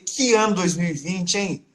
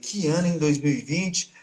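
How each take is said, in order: First: It sounds admiring and amazed. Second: It sounds dismayed and lamenting.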